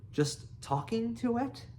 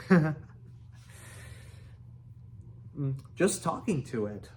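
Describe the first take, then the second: First: High, incredulous echo; astonished. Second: Understated sheepish mumble; embarrassed mumble. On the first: Fish Legs echoes Hiccup's admission, astonished. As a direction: question it in disbelief, pitch leaping up. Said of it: "gasped Fish Legs in astonishment". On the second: Hiccup owns up to Fish Legs, mildly embarrassed. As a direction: admit it with mild embarrassment. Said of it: "mumbled Hiccup, very embarrassed". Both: A narrator's reading.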